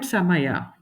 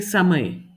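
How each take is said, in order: First: The word ends on a full final vowel sound. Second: The word ends on a consonant, final vowel dropped. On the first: This is how it is read in Kannada. "in Kannada, you read it the way it is written" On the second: This is how it is read in Hindi. "when you're pronouncing it, you're not um mentioning the A which came with the last letter"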